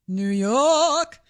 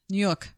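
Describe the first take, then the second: First: Drawn-out New York accent on "York"; long r-less New York "Yawk". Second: New York accent. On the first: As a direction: say "New York" like a native, stretching York. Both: Shown as a demonstration. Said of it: "she toned that one down".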